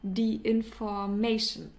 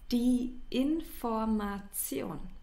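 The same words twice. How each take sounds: First: It is pronounced with an English accent. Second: It is pronounced with a German accent. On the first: The speaker calls it wrong. "pronounce it in an English way" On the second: The speaker calls it right. "That's not, it's"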